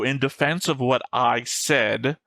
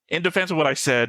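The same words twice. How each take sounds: First: The word 'said' carries strong emphasis. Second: The word 'said' carries no special emphasis.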